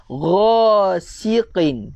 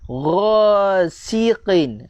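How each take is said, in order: Both takes have the same delivery.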